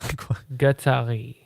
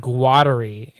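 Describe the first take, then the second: First: The R is a throaty French-style R. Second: The R is an English-style R. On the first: The speaker calls it right. "it's Guattari. ... get some beer in your throat so you can say the R's properly" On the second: The speaker calls it wrong. "it's not Guattari"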